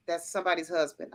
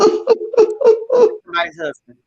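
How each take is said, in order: First: Hushed aside. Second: Slow, loud, stretched out Somebody's husband; lingering over Somebody's husband, half swooning; drawn-out emphasis. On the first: Retold or imitated. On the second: Real, not acted. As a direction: savor each syllable of Somebody's husband, louder and slower. Repeats it for emphasis.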